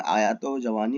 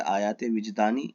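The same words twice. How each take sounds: First: آیات و جوانی read as printed, aa-yaat o ja-waa-ni with a separate و; the wrong printed form آیات و جوانی; misprint read out. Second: وجدانی said wij-daa-ni as one word after آیات, stress on وجدانی; the correct form آیات وجدانی; corrected reading. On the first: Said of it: "question paper میں آیات و جوانی لکھا ہوا". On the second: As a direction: give the correct title آیات وجدانی, rising on وجدانی. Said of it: "جبکہ آیات وجدانی اس کا صحیح". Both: Shown as a demonstration.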